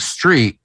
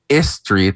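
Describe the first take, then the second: First: It starts directly with the s sound. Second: It starts with an added vowel before s. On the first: "instead of saying street" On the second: "you're saying istrit, like you're actually saying the letter S"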